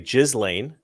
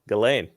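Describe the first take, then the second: First: The first syllable sounds like 'jizz'. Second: The first syllable does not sound like 'jizz'.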